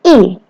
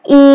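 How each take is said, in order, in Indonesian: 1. Nadanya jatuh tajam dari tinggi ke rendah. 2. Nadanya tetap tinggi dan datar. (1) "Dan I nada keempat" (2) "I nada pertama datar"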